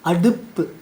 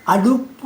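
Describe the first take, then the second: First: The final u vowel is said with spread lips. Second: The final u vowel is said with rounded lips. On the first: The speaker calls it right. "விரிவொலிகள் வந்தால் அதை அடுத்து வருகின்ற உகரமும்" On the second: The speaker calls it wrong. "இல்லை"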